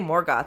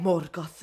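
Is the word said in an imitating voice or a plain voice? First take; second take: plain; imitating. First: It is said in the speaker's ordinary voice. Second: It copies another speaker's pitch and voice. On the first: It is just the word itself. "rather than saying I could say Morgoth" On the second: It parrots how someone else said it. "I'll try to get the pitch exactly right"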